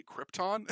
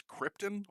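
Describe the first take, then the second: First: Krypton with a full "-tahn" ending; correct pronunciation. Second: Krypton ending in a weak "-tin"; Brando's mispronunciation. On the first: Shown as a demonstration. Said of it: "it's blatantly Krypton". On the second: Retold or imitated. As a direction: say "Krypton" as KRIP-tən. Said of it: "the way he just says Krypton".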